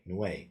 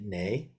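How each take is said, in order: First: It is said with a w sound after the n. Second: It is said plainly as nay, without a w. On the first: The speaker calls it right. "its correct pronunciation is noe, like a W here" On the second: The speaker calls it wrong. "I always just chant it nay"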